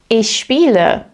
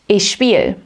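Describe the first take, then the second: First: The verb keeps its final e sound. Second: The verb drops its final e sound.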